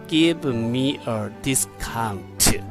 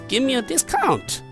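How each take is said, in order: First: It is said slowly, with words kept apart. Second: It is said quickly, with words run together.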